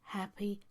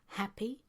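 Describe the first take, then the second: Both takes have the same delivery.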